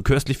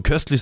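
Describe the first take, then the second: First: Köstlich with exaggerated first syllable; marked catchword intonation. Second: Said in the usual way. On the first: Shown as a demonstration. Co-host showing how köstlich needs its stress, exaggerated intonation. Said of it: "nicht so köstlich wie köstlich". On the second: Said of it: "einfach nur köstlich sagst".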